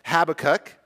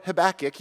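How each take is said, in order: First: "Habakkuk" as HAB-uh-kuk, first syllable stressed; "Habakkuk" with a light middle syllable, HAB-uh-kuk; first pronunciation. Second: "Habakkuk" as huh-BACK-uk, middle syllable stressed; "Habakkuk" with a light first syllable, huh-BACK-uk; second pronunciation. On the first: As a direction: put the weight on HAB in "Habakkuk". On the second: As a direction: put the weight on BACK in "Habakkuk". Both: Shown as a demonstration. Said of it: "when I say either".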